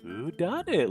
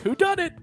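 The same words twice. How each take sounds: First: It is said in a worried, anxious tone. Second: It is said in a cheerful, upbeat tone. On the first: The question is grave and troubling. The speaker calls it right. "the last time where he's like, "Who done it?" Like, "Oh no, who was it?"" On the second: The question is a lighthearted game. The speaker calls it wrong. "He sounds too happy"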